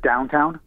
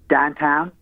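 First: The vowels are full two-part gliding diphthongs. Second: The vowels are flattened to single vowel sounds. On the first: This is the standard way of speaking. "instead of downtown" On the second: This is the local Pittsburgh way of speaking. "you guys have heard it in Pittsburgh when people say like downtown"

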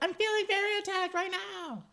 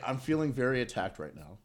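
First: It is said in a put-on imitating voice. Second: It is said in the speaker's plain voice. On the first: The speaker calls it right. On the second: The speaker calls it wrong.

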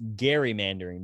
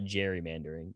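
First: The word begins with a hard g sound. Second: The word begins with a soft j sound. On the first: The speaker calls it right. "it's pronounced gerrymandering because the guy's name is Gary" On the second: The speaker calls it wrong. "not gerrymandering"

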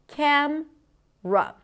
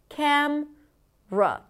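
No difference in how they are said.

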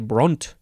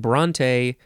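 First: The name is said with one syllable. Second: The name is said with two syllables. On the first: The speaker calls it wrong. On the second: The speaker calls it right.

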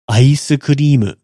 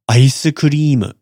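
The two takes are said the same way.

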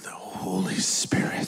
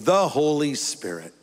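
First: It is said in an awed, mystified tone. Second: It is said in a plain, matter-of-fact tone. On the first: The Spirit is treated as something mysterious. The speaker calls it wrong. "We have to say it like that" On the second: The Spirit is treated as ordinary and approachable. The speaker calls it right. "let's just get it out in the light of day"

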